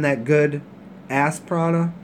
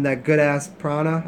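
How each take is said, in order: First: The word ass is grouped with prana. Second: The word ass is grouped with good. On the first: The prana comes from a backside. "I always put the comma in the funny spot" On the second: The prana is really good. "instead of saying"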